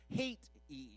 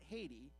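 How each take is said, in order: First: Said as two long, drawn-out syllables. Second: Said normally with short, ordinary syllables. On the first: "it's got to be two long syllables, and it sounds like you really dislike the country" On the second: "It's not Haiti"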